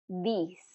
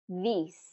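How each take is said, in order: The two takes are said the same way.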